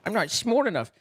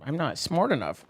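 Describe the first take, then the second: First: "smart" said as "smort", higher; jokey mispronounced "smart". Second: Said in the usual way. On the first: Pretend. Streamer admitting a joke went over their head, "smart" goofily said as "smort". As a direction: say "smart" with an "or" vowel, self-mockingly. Repeats line, changing smart.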